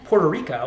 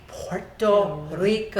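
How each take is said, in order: First: The R sounds are plain, not rolled. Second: The R sounds are strongly rolled. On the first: The speaker calls it wrong. "I would just say Puerto Rico" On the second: The speaker calls it right. "This is how you say Puerto Rico"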